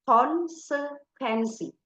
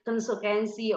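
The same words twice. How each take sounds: First: The vowels are clear and distinct. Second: The vowels are slurred and unclear. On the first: The speaker calls it right. "kalian harus bilangnya seperti itu" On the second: The speaker calls it wrong. "Nggak boleh gebleh gitu jadi konsekuensi"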